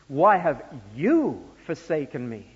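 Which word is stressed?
you. The stress falls on the word you.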